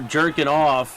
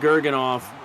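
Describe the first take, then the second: First: The name begins with a soft J sound. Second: The name begins with a hard G sound. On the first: The speaker calls it right. "I guess it's really soft J" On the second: The speaker calls it wrong. "I was saying the hard G"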